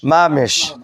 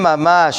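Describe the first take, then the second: First: It is said with an Ashkenazi-style 'i' vowel. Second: It is said with a Sephardi-style 'a' vowel.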